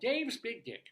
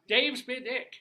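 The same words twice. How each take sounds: First: The name is said at normal volume. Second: The name is said at a louder volume.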